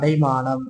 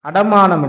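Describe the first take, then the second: First: The second syllable is 'dai' with a diphthong. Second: The second syllable is a plain 'da'. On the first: The speaker calls it right. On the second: The speaker calls it wrong.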